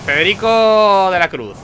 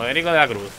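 First: Presidente de mesa. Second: Said in the usual way. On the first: Acted. Election president reading out a voter's name, announcing. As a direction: read out a name, slow, higher and louder. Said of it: "el presidente dice". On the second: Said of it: "Y yo digo".

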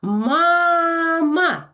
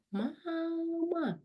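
First: Loud, high «Мама!»; loud call. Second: «Мама!» very soft and high; quiet. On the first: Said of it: "я знову голосно кажу". (голосно, високо «Мама!») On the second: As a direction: breathe «Мама!» softly. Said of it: "Якщо я кажу: «Тихо»". (тихо, ледь чутно «Мама!») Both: Shown as a demonstration.

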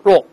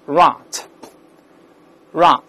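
First: Rot with a short rounded British o. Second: Rot with an open American "ah" vowel. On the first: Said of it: "在英式发音里面发o这个声音". (英式发音，rot读圆唇的哦音) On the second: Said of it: "到了美音一般变成啊这个声音". (美式发音，rot中的o读成啊) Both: Shown as a demonstration.

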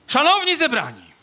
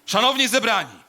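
First: Very high, loud ceremonial call. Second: Loud ceremonial opening, pitch reined in; solemn, projected orator's call; lower funeral address. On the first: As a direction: open the eulogy in a high, belted singer's voice. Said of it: "takim [name] pan troszeczkę zalatuje". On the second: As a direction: proclaim it to the mourners in a less piercing voice. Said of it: "niższym, dobrze". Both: Acted.

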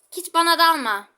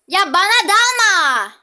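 First: Said in the usual way. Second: Loud, slow, high desperate plea; pleading shout. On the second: Real, not acted. Player yelling at enemy Kit not to attack, pleading shout. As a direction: beg at the top of your voice.

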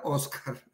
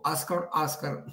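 First: Said in the usual way. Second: Oscar with a gringo accent. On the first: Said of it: "trato de decirlo muy". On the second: Shown as a demonstration. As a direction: say Oscar, Oscar slowly, the American English way. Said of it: "dizque muy gringo". (Oscar dicho lento con acento gringo)

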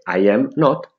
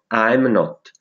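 First: Said in the usual way. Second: "I'm" merged into one syllable before not; forma contratta. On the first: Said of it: "Anziché". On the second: Shown as a demonstration. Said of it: "si contrae l'"I am". ("I'm not" con "I'm" in una sillaba)

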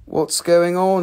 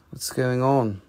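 First: Higher and louder, pushing for a response; host nudging a silent audience, louder; louder repeat. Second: Said in the usual way. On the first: Real, not acted. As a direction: call it out to wake the room up. Repeats question to quiet chat.

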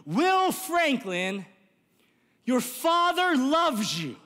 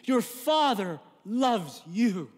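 First: Calling out. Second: A gentle, slow father's call through the car window; tender father's call. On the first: Retold or imitated. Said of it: "he yells". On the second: Acted. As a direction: say it like a father forgiving his son. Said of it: "rolls down the window and says to you".

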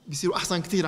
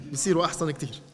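First: كتير leaned on, the rest even; stress on كتير. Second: بيصيروا hit first, falling to the end; stress on بيصيروا. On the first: Weight on كتير at the end. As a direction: priest repeating to the congregation, stressing كتير. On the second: Open strong on بيصيروا, let it fall. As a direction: priest repeats his line, now punching بيصيروا. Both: Shown as a demonstration.

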